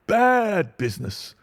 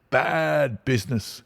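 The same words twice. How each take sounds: First: Much higher and louder, pompous; emphatic repeat. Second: Higher grumbling inspector voice; pompous inspector. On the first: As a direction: hammer the phrase home grandly. Inspector repeats phrase, louder. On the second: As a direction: mutter it with self-importance. Inspector repeats phrase. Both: Acted.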